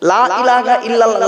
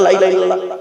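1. শুরুর 'la' লম্বা করে টানা। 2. তাড়াহুড়ো করে পড়া হচ্ছে, শুরুর 'la' ছোট। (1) "লামে টান দেবেন" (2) "তাড়াহুড়ো করতে গিয়ে ... বলবেন না"

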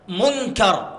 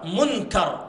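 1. النون مخفاة جزئيا في صوت الغنة. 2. تُنطق النون كاملة وواضحة. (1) "فأنا أخفيها قليلا" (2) "النون ظهرت"

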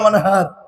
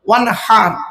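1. h হলো একটি সাধারণ, হালকা শ্বাসের ধ্বনি। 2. h হলো গলা থেকে আসা একটি খসখসে ধ্বনি। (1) "আর আমরা কি বলি উচ্চারণ করতে গিয়ে?" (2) "এই গলার ভেতর থেকে হে এটা উচ্চারণ করবেন"

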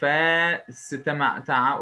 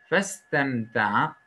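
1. 'f'den sonraki ünlü uzatılarak okunur. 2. 'f'den sonraki ünlü kısa tutularak okunur. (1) "Burayı festemta'a okumuyoruz. Uzatmıyoruz" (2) "Festemta'a okuyoruz"

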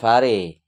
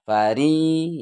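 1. Kata ini berakhir dengan vokal e. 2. Kata ini berakhir dengan vokal i. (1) "bukan fare" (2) "Fari ya"

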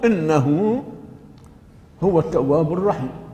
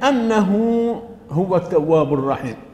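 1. تبدأ الكلمة الأولى بالحركة 'i'. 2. تبدأ الكلمة الأولى بالحركة 'a'. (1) "قراءة الجمهور بكسر همزة إن" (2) "بفتح همزة أن"

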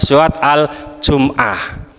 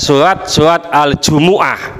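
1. Kata ini diucapkan dalam dua suku kata: jum-ah. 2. Kata ini diucapkan dengan tambahan u: ju-mu-ah. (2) "Termasuk ada"

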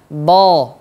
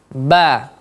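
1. Bunyinya tebal dan berat, seperti bo. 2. Bunyinya tipis dan jelas, seperti ba. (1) "tidak terangkat pangkal lidahnya, tidak kita baca bo" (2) "tapi ba, ba, jelas"

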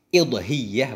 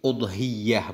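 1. Kata ini diawali dengan vokal i. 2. Kata ini diawali dengan vokal u. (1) "kadang-kadang dikasrahkan akan hamzah" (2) "dengan dhammah hamdah pada pendapat yang paling masyhur"

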